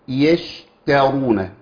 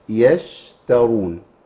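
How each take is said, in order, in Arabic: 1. الحرف ت مفصول بمبالغة شديدة. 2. الحرف ت مفصول بخفة وببساطة. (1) "بيتعامل مع التخليص بمبالغة" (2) "الامر سهل جدا"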